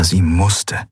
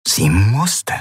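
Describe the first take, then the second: First: Said in the usual way. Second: MUSSTE drawn out and rising; stress on MUSSTE. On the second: A narrator's reading. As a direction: lean on "musste" with a climbing pitch. Repeated with added emphasis.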